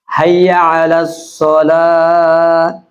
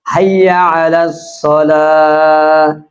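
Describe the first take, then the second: The two takes are said the same way.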